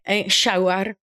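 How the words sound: The word begins with an 'sh' sound. This imitates the mother's Argentine way of saying it.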